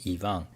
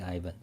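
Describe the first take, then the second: First: The name is said the Russian way. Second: The name is said the American way. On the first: "but in Russia, maybe Ivan" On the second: "in America, I think most mostly Ivan"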